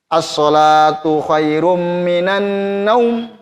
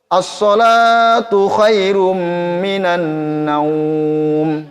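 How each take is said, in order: First: The vowel in the last word is held short. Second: The vowel in the last word is held long. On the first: The speaker calls it wrong. "Yang pertama" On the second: The speaker calls it right. "Yang kedua. Itu. Karena ini namanya madlin"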